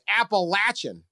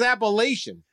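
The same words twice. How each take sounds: First: The middle syllable sounds like 'latch'. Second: The middle syllable does not sound like 'latch'. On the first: This is how the people who wrote in say it. The speaker calls it right. "Now they're saying it's Appalachian" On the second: This is how the speaker learned to say it. The speaker calls it wrong. "I thought it was Appalachian"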